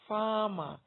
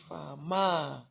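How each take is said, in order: First: The stress is on the first syllable. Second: The stress is on the second syllable. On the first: The speaker calls it right. "it is farmer" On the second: The speaker calls it wrong. "I don't say farmer"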